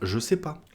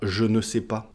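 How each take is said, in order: First: The ne is dropped, said quickly. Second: The ne is pronounced, every syllable deliberate. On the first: This is casual spoken style. "On va dire" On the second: This is the formal style. "C'est beaucoup trop long de dire"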